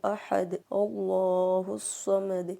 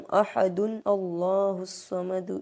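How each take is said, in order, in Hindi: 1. यह ahad पर रुकता है, फिर हमज़ा की रुकावट के साथ दोबारा शुरू होता है। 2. यह ahadun पढ़ता है, फिर allahu से पहले हमज़ा की रुकावट आती है। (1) "हमें यहाँ पर वक्फ करेंगे। अहद दाल को साकिन करके पढ़ना है" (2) "इस तरह नहीं पढ़ सकते"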